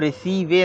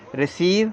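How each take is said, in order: First: A vowel is sounded after the final v. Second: The word ends on the v sound. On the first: The speaker calls it wrong. "रिसीवे नहीं पढ़ेंगे हम" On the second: The speaker calls it right. "रिसीव ऐसे आपको पढ़ना है"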